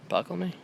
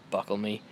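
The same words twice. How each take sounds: First: "Buckle me?" asked with a high questioning rise; questioning tune. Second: Said in the usual way. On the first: Real, not acted. Dad doubting his own word choice, "Buckle me?" rising high as a question. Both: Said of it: "Is that the right word?".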